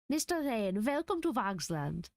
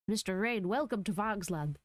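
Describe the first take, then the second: First: It is said with a German accent. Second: It is said with no foreign accent. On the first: The speaker calls it right. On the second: The speaker calls it wrong.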